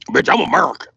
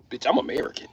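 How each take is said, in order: First: Punchy, forceful repeat; emphatic retort. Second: Softly stated, under the breath; low-key retort. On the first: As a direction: punch it out with attitude. Same line repeated forcefully. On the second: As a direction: toss it out quietly, rising at the end. Same line said low first. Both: Acted.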